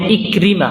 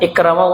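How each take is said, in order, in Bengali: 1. দ্বিতীয় উচ্চারণাংশটি 'i' স্বরে বলা হয়। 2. দ্বিতীয় উচ্চারণাংশটি 'a' স্বরে বলা হয়। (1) "উচ্চারণটা হবে ইকরিমা" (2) "ইকরামা উচ্চারণটা শুদ্ধ না"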